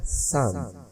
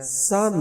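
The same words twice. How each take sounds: First: सन short, low and soft; reduced, quiet सन; unstressed word. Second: सन drawn out with full stress; slow, fully stressed सन; stressed word. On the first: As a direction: let सन drop away, unstressed. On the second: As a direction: hold the vowel of सन. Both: Shown as a demonstration. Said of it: "sound different है".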